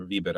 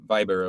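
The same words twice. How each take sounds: First: Viber said with an ee, VEE-ber; second option, "VEE-ber" for Viber; alternative pronunciation. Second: Viber said with a long i, VY-ber; first option, "VY-ber" for Viber; pronunciation variant. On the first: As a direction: say Viber with first syllable like "vee". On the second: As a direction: say Viber to rhyme with fiber. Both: Shown as a demonstration. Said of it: "the correct way to pronounce it".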